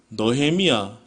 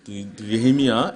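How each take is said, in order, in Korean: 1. 첫 음절은 'eo' 모음으로 발음합니다. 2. 첫 음절은 'eu' 모음으로 발음합니다. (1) "몇 가지 단어만 조금 조심을 하면 되겠죠" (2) "발음을 잘하면 될 것 같습니다"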